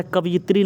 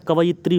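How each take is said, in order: First: कवयित्री said as kaviitri, the wrong spelling; कवयित्री as the misspelt kaviitri; wrong form. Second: कवयित्री said clearly as ka-va-yitri; कवयित्री in its correct ka-va-yitri form. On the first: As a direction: say कवयित्री as ka-vi-itri, marking the mistake. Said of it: "कवयित्री नहीं होता है". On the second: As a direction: say कवयित्री properly as ka-va-yi-tri. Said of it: "कवयित्री होता है". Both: Shown as a demonstration.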